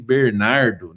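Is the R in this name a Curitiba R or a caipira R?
caipira R. The R is said the local caipira way.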